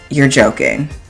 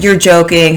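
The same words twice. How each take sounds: First: It is said in a dry, sarcastic tone. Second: It is said in an amused, laughing tone. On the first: The listener doubts what was said. The speaker calls it right. "it's a little bit sarcastic" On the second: The listener finds the remark genuinely funny. The speaker calls it wrong. "ha ha ha, that's so funny"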